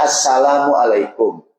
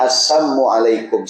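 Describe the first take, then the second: First: Slow, full "Assalamualaikum" with every syllable clear; "Assalamualaikum" said slowly and properly, with the "la" kept in; correct salam. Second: Slow "Assamualaikum" with the "la" dropped, sounding like the proper greeting; "Assamualaikum" drawn out, missing the "la" syllable; twisted salam. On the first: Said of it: "Ketemu Nabi bilangnya, kan harusnya". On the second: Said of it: "Orang Yahudi bilangnya". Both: Shown as a demonstration.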